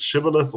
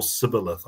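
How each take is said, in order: First: Shibboleth begun with a SH sound; hushing first consonant in shibboleth; SH pronunciation. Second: Sibboleth begun with a plain S sound; simple S opening sibboleth; S pronunciation. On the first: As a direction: say shibboleth with an opening "sh". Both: Shown as a demonstration. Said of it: "you either say it".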